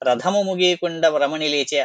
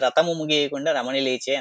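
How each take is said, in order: First: The 'th' in the first word is aspirated. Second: The 't' in the first word is unaspirated. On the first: The speaker calls it right. "అనాల్సింది" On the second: The speaker calls it wrong. "థ ఒత్తు థ పలకలేక ... అన్నది"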